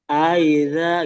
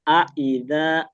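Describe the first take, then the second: First: The two vowels are dragged and run together. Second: The two vowels are kept separate and clear. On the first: The speaker calls it wrong. "mungkin malas atau apa mulutnya bacanya jadi kayak aida gitu, kayak diseret gitu" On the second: The speaker calls it right. "Hamzah yang fathah, hamzah yang kasroh dibacanya jelas"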